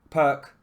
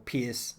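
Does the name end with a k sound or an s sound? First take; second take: k sound; s sound. First: The name ends with a k sound. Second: The name ends with an s sound. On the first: The speaker calls it right. "it's pronounced Perk" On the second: The speaker calls it wrong. "for those who can't pronounce it properly"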